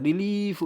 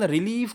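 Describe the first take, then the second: First: "रिलीफ" with a long, held ee; drawn-out vowel. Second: Said in the usual way. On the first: Shown as a demonstration. Teacher demonstrating the big sound, "रिलीफ" drawn out. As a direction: stretch the ee of "रिलीफ". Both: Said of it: "फिर से बड़ा sound आ रहा है".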